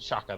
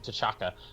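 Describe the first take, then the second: First: The name starts without a T sound. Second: The name starts with a T sound. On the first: "silent T and then Chaka" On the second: "they call him T'Chaka"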